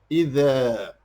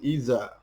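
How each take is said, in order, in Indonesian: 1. Huruf tengahnya bunyi 'dh', lidah di antara gigi. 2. Huruf tengahnya bunyi z biasa. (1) "huruf zal ... dengan mengeluarkan lidah kita" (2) "bukan iza"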